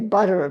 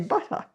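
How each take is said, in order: First: It is said with an American accent. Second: It is said with an English accent. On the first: "Americans say butter" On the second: "English people say butter"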